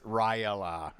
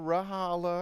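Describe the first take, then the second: First: The name has a y sound in the middle. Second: The name has an h sound in the middle. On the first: The speaker calls it right. "It's Ryala" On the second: The speaker calls it wrong. "I just got so used to saying it the wrong way"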